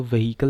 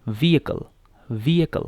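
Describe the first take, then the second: First: व्हीकल as "vuh-HEE-kul", h sounded; wrong pronunciation. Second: व्हीकल as "VEE-uh-kul", no h; correct pronunciation. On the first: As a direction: say व्हीकल with a breath of h in the middle. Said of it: "व्हीकल नहीं पढ़ना". (व्हीकल का गलत उच्चारण, "वहीकल") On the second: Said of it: "इसको क्या पढ़ना है आपने". (व्हीकल का सही उच्चारण, "वीअकल") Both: Shown as a demonstration.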